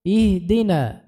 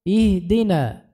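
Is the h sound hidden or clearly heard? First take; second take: hidden; hidden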